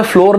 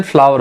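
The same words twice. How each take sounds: First: "फ्लोर" said like floor, with a long o; "फ्लोर" as floor, shown as the mistake; wrong pronunciation floor. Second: "फ्लावर" said like flower, two syllables, fla-ver; "फ्लावर" with the ow sound, shown as the right way; correct pronunciation flower. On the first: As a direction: say "फ्लोर" rhyming with door, the wrong way. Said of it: "इसका pronunciation से फ्लोर नहीं होता है". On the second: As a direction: say "फ्लावर" as in the flower you pick. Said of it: "इसका pronunciation फ्लावर होता है". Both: Shown as a demonstration.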